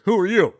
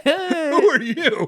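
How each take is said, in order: First: Higher, louder mock demand; gruff demanding principal. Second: Very high and slow, laughing through it; laughing drawn-out quote. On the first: Principal confronting the cop, mock demanding. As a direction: bark the question at the intruder. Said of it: "he goes". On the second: Retold or imitated. Retelling the principal's line while laughing, slow and high. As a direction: stretch it out while cracking up. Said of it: "repeats the quote laughing".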